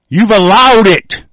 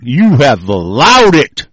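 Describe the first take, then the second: First: "allowed" said slow, loud and high; stress on allowed. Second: "allowed" slow, loud, at usual pitch; stress on allowed. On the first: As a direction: punch "allowed" with a falling end. Climax of rant. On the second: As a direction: lean on "allowed" slowly, falling. Repeated accusation. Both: Real, not acted.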